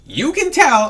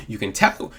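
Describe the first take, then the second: First: "tell" high and loud; emphatic. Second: Said in the usual way. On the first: Shown as a demonstration. Vlogger stressing "tell" to viewers, high and loud. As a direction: hit "you can tell" hard and high.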